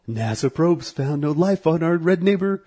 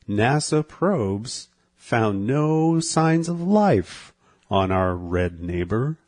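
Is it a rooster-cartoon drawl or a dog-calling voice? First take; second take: dog-calling; rooster drawl. First: It is said like talking to a dog. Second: It is said in a Foghorn Leghorn drawl.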